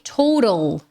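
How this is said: The middle T is a flapped R-like sound. "o T no inglês americano e canadense vai ter o som de R de arara"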